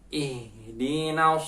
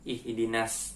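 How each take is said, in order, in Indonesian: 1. Bunyi s-nya tebal dan berat. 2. Bunyi s-nya tipis dan ringan. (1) "Yang benar so" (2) "ketika sin biasa ihdinas. Nah, itu salah"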